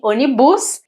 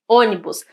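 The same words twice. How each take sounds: First: The stress is on a later syllable. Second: The stress is on the first syllable. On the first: The speaker calls it wrong. "A gente não fala ônibus" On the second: The speaker calls it right. "a primeira sílaba é a tônica"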